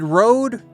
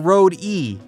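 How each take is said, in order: First: The name is said as one syllable. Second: The name ends with an extra 'ee' syllable. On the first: "is it Rode or Rode E?" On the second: "if you pronounce it with Rode E"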